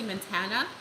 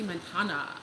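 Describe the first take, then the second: First: It is said in a plain everyday way. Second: It is said in a more sultry way. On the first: This is how the audience says it. "I know you guys say Montana" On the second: This is how the speaker says it. "Doesn't it sound more sultry when I say that?"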